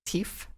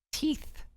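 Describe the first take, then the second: First: Teeth said as "teef", high and questioning. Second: Teeth ending on a clear th, high and soft. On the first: Catching a slip while reading aloud, Teeth said as "teef". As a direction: end Teeth on an F sound. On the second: Correcting their own slip, Teeth with a clear th at the end. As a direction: finish Teeth with th, not f. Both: Shown as a demonstration. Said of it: "Not an F".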